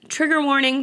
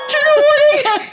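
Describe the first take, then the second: First: It is said in the speaker's normal voice. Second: It is said in a put-on, character voice.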